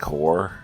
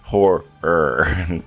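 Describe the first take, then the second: First: The middle 'er' sound is swallowed and dropped. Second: The middle 'er' sound is clearly pronounced. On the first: The speaker calls it wrong. "it comes out sounding like horror" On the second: The speaker calls it right. "add that enunciate and say the extra er"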